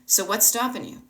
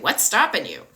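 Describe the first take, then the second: First: It is asked in a curious, non-judging tone. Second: It is asked in a harsh, judging tone.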